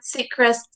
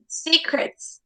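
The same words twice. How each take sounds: First: "Seacrest" as sea-CREST, second syllable given full weight; wrong stress demo. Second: "Secrets" as SEE-crits, second syllable reduced; stress on first syllable. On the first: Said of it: "it is not Seacrest". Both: Shown as a demonstration.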